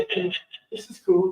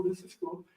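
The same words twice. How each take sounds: First: Said in the usual way. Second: Whispered, very soft, so the fawn stays calm; soft awed whisper; hushed whisper. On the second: Retold or imitated. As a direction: breathe the words so as not to startle it. Father hushing kids near fawn.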